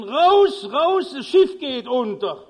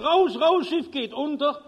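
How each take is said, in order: First: Much higher, much louder roar; bellowing at full force. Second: Desperate calling out. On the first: Steward roaring at the card players in the salon, full bellow. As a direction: yell with all your strength to wake them. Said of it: "Brüllt aus Leibeskräften". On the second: Steward running past cabins warning passengers, desperate shout. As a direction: call out to the cabins in alarm. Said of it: "ruft verzweifelt". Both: Retold or imitated.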